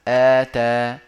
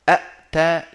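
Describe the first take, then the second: First: It begins with one glottal stop and long a. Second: It begins with two glottal stops in a row. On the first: The speaker calls it right. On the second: The speaker calls it wrong.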